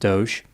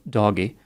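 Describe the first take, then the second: First: The name is said as one syllable. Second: The name is said as two syllables. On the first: "It's pronounced Doge instead of doggy" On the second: "depending on one's preference for pronunciation"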